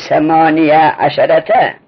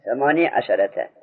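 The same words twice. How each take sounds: First: ثمانیه عشرته slowly, ending the first word in "-niya"; fatha on the ya. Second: ثمانی عشرته with "-nee", no "a" after it; sukun on the ya. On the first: Teacher showing students the voweled ya, fatha on it. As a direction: sound the ya of ثمانیه as "ya" before عشرته. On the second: Teacher answering how it is read, ya with sukun. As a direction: end ثمانی on a still ya, then عشرته. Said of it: "یا را ساکن کنیم چجور میگیم". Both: Shown as a demonstration.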